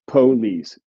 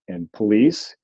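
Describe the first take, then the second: First: The stress is on the first syllable. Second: The stress is on the second syllable. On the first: This is how some southern varieties say it. "where the stress was on the first syllable" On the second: This is how most northern varieties say it. "in most northern varieties"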